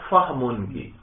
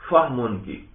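No difference in how they are said.

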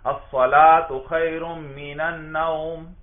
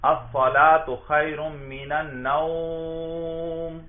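First: The vowel in the last word is kept short. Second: The vowel in the last word is stretched long. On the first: The speaker calls it right. "دیکھا مختصر سا ادا کر دیں گے" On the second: The speaker calls it wrong. "خوب لمبا کرتے ہیں"

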